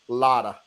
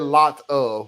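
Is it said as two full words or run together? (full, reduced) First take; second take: reduced; full. First: The words are run together as one reduced word. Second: The words are said fully as two words. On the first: The speaker calls it right. "that's exactly how we say it" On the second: The speaker calls it wrong. "We don't say lot of"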